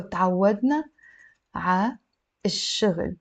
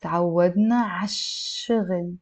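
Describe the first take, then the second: First: تعودنا, ع, الشغل with a pause after each; step by step, unlinked. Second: ع الشغل linked as 'ash-shughl, sh held; liaison. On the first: Teacher building the phrase before linking it, word by word. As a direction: separate ع from ish-shughl in ع الشغل. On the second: Teacher taking another step for learners, linked with liaison. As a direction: run تعودنا ع الشغل together without pauses. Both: Shown as a demonstration. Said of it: "We can do a liaison".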